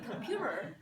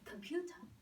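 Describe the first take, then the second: First: Soft American t and a final r sound. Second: Crisp British t with no final r sound. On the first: "instead of saying computer" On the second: "let's get rid of extra R's. And let's emphasize more T's"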